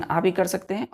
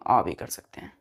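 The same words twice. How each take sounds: First: आ as a long open "aa"; first option, आ clearly "aa"; open "aa" vowel. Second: आ rounded to "aw", lower falling tune; second option, आ as "aw", pitch dropping; rounded "aw" vowel. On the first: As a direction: say आ open, as in "car". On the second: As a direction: say आ like the vowel in "all". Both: Shown as a demonstration. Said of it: "ए का हम pronunciation".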